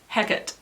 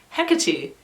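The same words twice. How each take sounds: First: The name is said the Shakespearean way. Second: The name is said the Greek way. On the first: "is the Shakespearean pronunciation" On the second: "is the Greek pronunciation"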